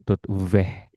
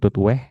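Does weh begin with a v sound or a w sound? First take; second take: v sound; w sound. First: Weh begins with a v sound. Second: Weh begins with an English-like w sound. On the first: The speaker calls it right. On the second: The speaker calls it wrong.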